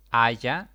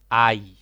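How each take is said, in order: First: "haya" said loud as a wrong plural of "ay"; wrong form. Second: "ay" said loud as the one right form; correct form. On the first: Teacher voices the wrong form "haya" loudly. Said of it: "No puedo decir". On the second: Teacher gives the correct "ay" loudly. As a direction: say plain "ay", firmly and loud. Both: Shown as a demonstration.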